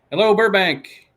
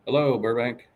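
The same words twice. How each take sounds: First: High, loud greeting to Burbank; loud hello. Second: Said in the usual way. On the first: Shown as a demonstration. Greeting Burbank viewers on the stream, loud and high. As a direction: call it out to the whole city. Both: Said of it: "Hello, clap Burbank".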